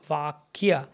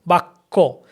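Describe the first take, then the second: First: The ya glide after k is sounded. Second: The ya glide is dropped; the k is doubled. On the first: It follows the written transliteration form. "ideally should be Bakya" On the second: It is the everyday spoken Bengali form. "in Bengali pronunciation it becomes Bakko"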